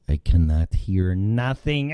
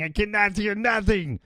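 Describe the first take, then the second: First: Said in the usual way. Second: Much higher, escalating repeat; high-pitched complaint. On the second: Acted. Host with dead Skype audio, high exasperated complaint. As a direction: push it way up in pitch, each word climbing.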